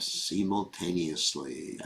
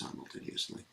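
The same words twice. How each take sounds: First: The word is said with a Spanish accent. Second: The word is said with a standard English accent. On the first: "I put a little Spanish accent there" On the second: "I know it's simultaneously"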